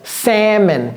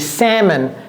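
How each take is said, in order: No difference in how they are said.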